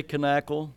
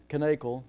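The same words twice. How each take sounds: First: "Knackle" with a short A, as in cat; short-A pronunciation. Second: "Knackle" with a long A, as in cake; long-A pronunciation. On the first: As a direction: say "Knackle" as kuh-NACK-ul, K sounded. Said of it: "I say Knackle". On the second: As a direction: say "Knackle" as kuh-NAKE-ul, K sounded. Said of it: "you say Knackle". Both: Shown as a demonstration.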